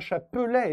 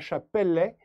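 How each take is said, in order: First: The middle vowel is weak, as with one L. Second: The middle vowel is open, as with double L. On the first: The speaker calls it right. "on dit bien chapelet" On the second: The speaker calls it wrong. "et pas chapelet"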